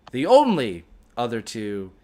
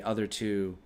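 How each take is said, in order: First: "only" leaned on in self-correction; stress on ONLY. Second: Said in the usual way. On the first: Real, not acted. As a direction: hit "only" in "the only other two".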